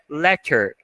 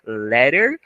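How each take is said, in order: First: The double T sounds like a clear T. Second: The double T sounds like a quick R. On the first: "ou então você pode colocar a própria pronúncia de T" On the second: "tem uma pronúncia de R"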